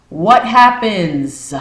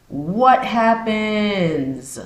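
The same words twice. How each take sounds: First: Slow, high and loud on WHAT HAPPENS; loud pressing question. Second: Very slow, high WHAT HAPPENS, stretched long; drawn-out question. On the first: Challenging viewers about having no cash, loud and pressing. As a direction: punch "what happens" hard, stretching both words. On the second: Asking viewers to ponder the outage, long drawn out. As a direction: draw out "what happens" and let it hang. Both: Real, not acted.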